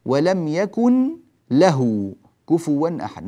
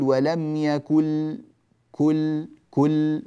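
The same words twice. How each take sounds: First: ولم يكن له recited slowly, the nun vanishing straight into the lam, no nasal hum; idgham without ghunna. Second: يكن pronounced as يكل, slow, no nasal hum; idgham demo. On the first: Teacher reciting the verse to show the lost nun. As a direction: say يكن له as يكل with no nasal trace. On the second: Teacher isolating the merged sound for students. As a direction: drop the nun completely: يكل. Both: Shown as a demonstration. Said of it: "والنون غير موجودة تمامًا".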